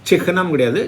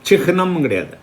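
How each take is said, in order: No difference in how they are said.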